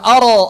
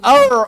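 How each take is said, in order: First: The r bounces, adding a short vowel after it. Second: The r is made further back in the mouth. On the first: "atau dipantulkan" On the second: "atau dikebelakangin"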